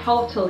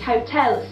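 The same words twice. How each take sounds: First: The stress falls on the first syllable. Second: The stress falls on the second syllable. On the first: The speaker calls it wrong. "So many people say hotel here" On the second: The speaker calls it right. "we put the stress onto the second syllable, and this will be the correct pronunciation"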